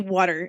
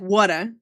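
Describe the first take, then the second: First: It has a mild New York accent. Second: It has a strong New York accent. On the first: "I say water instead of water" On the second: "I don't go full like water"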